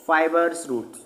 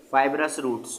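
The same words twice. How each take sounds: First: 'फाइबर्स' said like 'fibers', without the 'rəs' ending; mispronounced term. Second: 'फाइबरस' said as fib-rous, ending in -brəs; corrected pronunciation. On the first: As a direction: slip 'fibrous' into 'फाइबर्स', ending in -bərs. ('फाइबर्स' का गलत उच्चारण, 'फाइबर' में स जोड़कर) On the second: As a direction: correct yourself to 'फाइबरस', with r before the final -əs. ('फाइबरस' का सुधरा उच्चारण, अंत में '-ब्रस') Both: Real, not acted. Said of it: "sorry".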